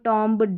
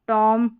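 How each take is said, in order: First: A B sound follows the final M. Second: The word ends on the M sound. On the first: The speaker calls it wrong. "इस तरीके से नहीं पढ़ना" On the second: The speaker calls it right. "इस तरीके से पढ़ना है"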